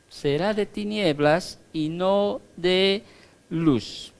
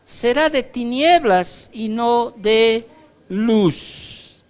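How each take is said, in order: First: Said in the usual way. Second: Raised, slow proclaiming voice; proclaimed. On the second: Acted. Preacher proclaiming the verse, then repeating it plainly. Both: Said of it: "repeats the line plainly".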